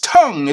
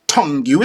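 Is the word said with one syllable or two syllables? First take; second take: one; two. First: The word is one syllable with no ending. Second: The word ends with an extra 'you' syllable. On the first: The speaker calls it right. "it's tongue" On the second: The speaker calls it wrong. "it's not tongue you"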